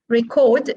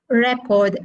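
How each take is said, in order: First: The stress is on the second syllable. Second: The stress is on the first syllable. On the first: "Record is stressed on the second syllable" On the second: "Record is stressed on the first syllable"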